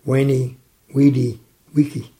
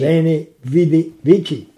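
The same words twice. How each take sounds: First: Veni, Vidi, Vici with a W sound: weni, widi, wiki; German pronunciation. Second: Veni, Vidi, Vici with a real V and a ch at the end: veni, vidi, vichi; Latin pronunciation. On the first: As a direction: say it the German way, every V as W. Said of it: "in the German translation". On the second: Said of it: "But in the Latin translation". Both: Shown as a demonstration.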